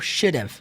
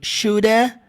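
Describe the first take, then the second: First: It ends with a short v sound. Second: It ends with an uh sound, no v. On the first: "Só com o somzinho do V" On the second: "ficar woulda e shoulda desse jeito"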